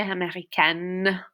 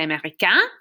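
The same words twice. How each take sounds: First: Américaine ending in a clear "-kenn"; feminine pronunciation. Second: Américain ending in a nasal vowel; masculine pronunciation. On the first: Teacher reviews the girl's word, américaine with sounded N. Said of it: "A girl would say". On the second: Teacher reviews the boy's word, américain with silent N. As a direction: keep the final N of américain silent. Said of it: "If you're a boy". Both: Shown as a demonstration.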